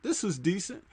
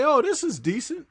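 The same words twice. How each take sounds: First: Quieter, half to himself; softer musing repeat. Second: Raised, lightly surprised approval; mildly impressed viewer. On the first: Viewer repeating the verdict quietly to himself. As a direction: nod it through under the breath. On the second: Viewer who doesn't know the actors, mildly impressed. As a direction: sound pleasantly surprised by the film. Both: Retold or imitated. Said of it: "you could say".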